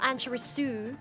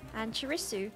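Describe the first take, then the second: First: The final syllable su is heavily stressed. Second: The final syllable su is light and unstressed. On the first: The speaker calls it wrong. "It's not like heavy emphasis on the Su" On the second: The speaker calls it right. "it's just Annchirisu"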